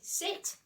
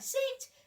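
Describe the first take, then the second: First: It is said at a normal pitch. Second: It is said at a high pitch.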